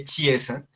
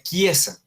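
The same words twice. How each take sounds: First: Chiesa said "chee-EH-sa"; as spelled. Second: Chiesa said "kee-EH-sa"; Italian pronunciation. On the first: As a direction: read chiesa with a Spanish ch. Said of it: "en italiano uno escribe chiesa". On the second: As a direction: say chiesa with a hard k. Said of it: "pero se pronuncia chiesa". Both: Shown as a demonstration.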